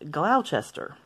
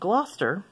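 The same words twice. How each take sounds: First: The word is said following its spelling. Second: The word is said in a shortened form. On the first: The speaker calls it wrong. "some people think it's pronounced Gloucester" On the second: The speaker calls it right. "I grew up in a place called Gloucester"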